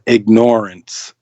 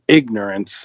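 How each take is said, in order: First: The stress is on the second syllable, like ignore. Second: The stress is on the first syllable. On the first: The speaker calls it right. "we remain in ignorance" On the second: The speaker calls it wrong. "instead of ignorance"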